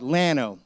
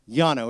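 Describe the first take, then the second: First: The name is said with local English pronunciation. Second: The name is said with Spanish pronunciation. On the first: It follows how people living there say it. "the locals call it Lano" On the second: It follows the word's original language. "It's the Spanish word for flat"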